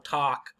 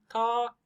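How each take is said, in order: First: The L sound is silent in the word. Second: The L sound is pronounced in the word. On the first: "Other people, no, talk, ah, ah, ah" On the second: "Some people will say talk, talk. You hear the L"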